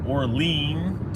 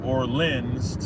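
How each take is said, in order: First: The last syllable rhymes with the word lean. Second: The last syllable sounds like the name Lynn. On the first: "to lean on something" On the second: "to like the woman's name Lynn"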